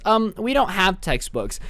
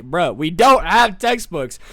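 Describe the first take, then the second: First: Student snitch. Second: Slow, drawn-out exasperated protest; imitating a class at its wit's end; mock exasperation. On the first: Retold or imitated. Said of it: "Abigail was a whole snitch". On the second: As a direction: spell it out as a fed-up student.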